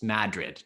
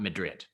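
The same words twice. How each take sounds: First: It is said the New York town's way. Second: It is said the way Spain's capital is. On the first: This is how the town's name is really pronounced. The speaker calls it right. "but it's Madrid" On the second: This is the pronunciation of the Spanish city. The speaker calls it wrong. "not Madrid"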